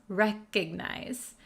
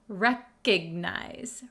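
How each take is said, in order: The two takes are said the same way.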